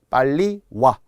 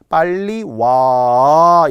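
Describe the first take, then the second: First: The vowel in 와 is kept short. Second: The vowel in 와 is drawn out long. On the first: The speaker calls it right. "짧게 발음한다는 거죠" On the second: The speaker calls it wrong. "이렇게 길게 하지 않는다는 거예요"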